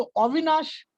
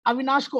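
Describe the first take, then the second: First: "अविनाश" with a rounded o for its first vowel; Bengali-accented "अविनाश", opening round; Bengali pronunciation. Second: Said in the usual way. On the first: Shown as a demonstration. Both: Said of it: "Bengal में लोग कैसे बोलते हैं".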